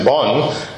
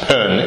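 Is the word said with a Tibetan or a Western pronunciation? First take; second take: Western; Tibetan. First: The word is said with a Western pronunciation. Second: The word is said with its Tibetan pronunciation. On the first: "Western people pronounce it bon" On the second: "it's pronounced pen in Tibetan"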